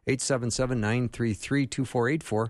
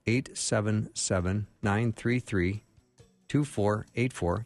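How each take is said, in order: First: The number is said fast. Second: The number is said slowly.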